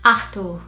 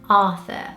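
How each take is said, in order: First: It is said without an English th sound. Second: It is said with an English th sound. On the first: "Brazilians would pronounce this name Arthur" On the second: "here in the U K you'd probably hear Arthur"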